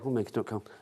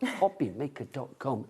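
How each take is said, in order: First: The phrase is mumbled quietly and unclearly. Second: The phrase is said loudly and clearly. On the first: The speaker calls it wrong. "some of them you get" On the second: The speaker calls it right. "such good diction as well ... loud and proud"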